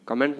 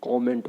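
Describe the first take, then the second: First: कमेंट with a short "uh" start: kuh-MENT; wrong pronunciation. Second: कमेंट with an open "o" start: KOM-ent; correct pronunciation. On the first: (कमेंट में पहला स्वर छोटा अ) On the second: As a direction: say कमेंट as "kaw-ment". (कमेंट को "कॉमेंट" बोलें) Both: Shown as a demonstration. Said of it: "कमेंट नहीं होता है".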